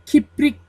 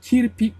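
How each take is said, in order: First: The r sound comes after the p. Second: The r sound comes before the p. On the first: The speaker calls it wrong. "Kiprik değil" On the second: The speaker calls it right.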